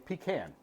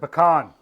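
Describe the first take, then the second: First: It is said the northern way. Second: It is said the Southern way. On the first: "Up north ... they say pecan" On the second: "In the South, it's a pecan"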